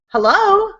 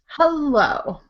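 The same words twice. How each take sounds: First: It sounds urgent, trying to stop someone leaving. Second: It sounds shaming, trying to make someone ashamed.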